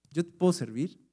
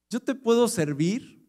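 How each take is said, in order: First: Said in the usual way. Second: "puedo" lifted higher with a rising tune; stress on puedo. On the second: Shown as a demonstration. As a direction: lean up on "puedo".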